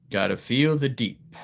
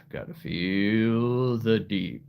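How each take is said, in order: First: Said in the usual way. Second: Slow, drawn-out "Gotta feel the deep"; "deep" eased down, long and slow. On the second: Shown as a demonstration. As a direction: stretch "feel the deep" out slowly, reaching for depth. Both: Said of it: "The deep voice".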